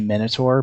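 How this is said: It is pronounced the American way. "we say Minotaur"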